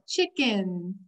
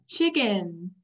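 First: Smiling. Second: Said in the usual way. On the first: Shown as a demonstration. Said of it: "you could kind of smile". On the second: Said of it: "repeat, class".

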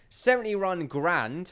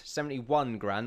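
First: Seventy run grand, with run for one, said slowly; slow tongue-slip on seventy run grand. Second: Said in the usual way. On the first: Real, not acted. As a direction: trip over seventy run grand, saying run instead of one. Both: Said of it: "not seventy run grand".

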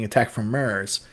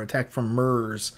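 First: MARS with an open "ar" vowel; plainly sounded "ar" in MARS; standard pronunciation. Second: MARS said as "Mers", drawn out; slow "Mers" for MARS; Newfoundland pronunciation. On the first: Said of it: "instead of saying". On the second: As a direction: say MARS with an "er" vowel, Newfoundland style. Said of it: "it's our Newfoundland accent". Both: Shown as a demonstration.

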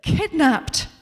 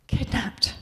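First: Playing to an imaginary theatre audience; hammed-up dramatic actress. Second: Mournful. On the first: Suze rehearsing a line on the movie set, hammed-up stagey delivery. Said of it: "says Suze again". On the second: Acted. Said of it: "she says in a mournful voice".

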